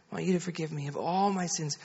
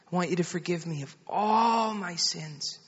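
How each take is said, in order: First: Quicker, softer imitation of a child repeating; retold child's soft repeat; child echoing prayer. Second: Lightly voiced mother leading, lingering on "all"; soft prayer line for a child to repeat. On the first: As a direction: echo the prayer line quietly and briskly. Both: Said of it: "You just pray after me".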